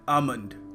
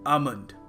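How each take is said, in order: First: The L sound is silent. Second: The same.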